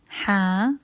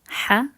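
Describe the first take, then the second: First: The vowel is held long. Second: The vowel is cut short. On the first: "practice pronunciation with the vowels" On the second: "And the short ones"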